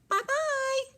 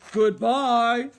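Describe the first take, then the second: First: It is said in a high, squeaky voice. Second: It is said in a big, gruff voice.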